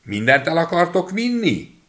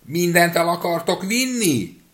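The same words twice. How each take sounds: First: High, loud little voice calling out; little boy's high shout; shouting as loud as he can. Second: High, loud and slow shout; boy shouts louder still; even louder shout. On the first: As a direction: yell it up high to wake the house. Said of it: "kikiáltott, amilyen hangosan csak bírt". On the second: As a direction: drag it out louder to wake the maid. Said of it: "még hangosabban kiáltott". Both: A narrator's reading.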